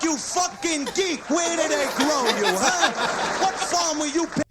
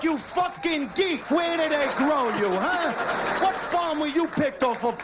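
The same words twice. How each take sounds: First: Mock clerk insult. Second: Shouted insult. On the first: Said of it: "the convenience store accent". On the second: Retold or imitated. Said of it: "shouted retake".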